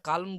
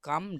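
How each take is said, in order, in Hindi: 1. इस शब्द में L की ध्वनि बोली जाती है। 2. इस शब्द में L की ध्वनि साइलेंट है। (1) "ভুলেও উচ্চারণটা কালম বললে হবে না" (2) "এই উচ্চারণটি হবে কাম ডাউন"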